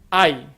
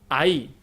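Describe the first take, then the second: First: The stress falls on the first vowel. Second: The stress falls on the second vowel. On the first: "con acento en la A" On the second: "con acento y tilde en la I"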